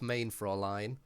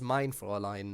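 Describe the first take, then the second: First: The first word sounds like 'main'. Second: The first word sounds like 'mine'. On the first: The speaker calls it wrong. "instead of main Fräulein. Because it was very weird" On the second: The speaker calls it right. "he pronounces it as mein Fräulein now"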